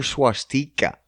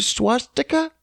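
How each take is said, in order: First: Swastika with an EE in the middle, swah-STEE-kuh; long middle vowel. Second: Swastika with a short, weak middle vowel, SWAH-stuh-kuh; unstressed middle vowel. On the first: Offering the other swastika, middle syllable a long EE. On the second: Asking which swastika is correct, middle syllable short and weak. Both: Shown as a demonstration. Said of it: "Is it swastika or swastika?".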